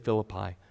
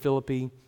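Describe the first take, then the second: First: Philippi is pronounced the usual English way. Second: Philippi is pronounced the Greek way. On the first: This is how modern English speakers say it. "we tend to say Philippi" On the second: This is how the ancient locals said it. "The Greeks said Philippi"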